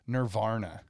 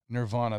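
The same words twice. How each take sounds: First: The word is said with an extra R sound. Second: The word is said without an extra R sound. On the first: "They added an extra R" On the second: "they never pronounced it Nirvana"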